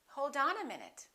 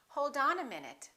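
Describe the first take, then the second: Both takes have the same delivery.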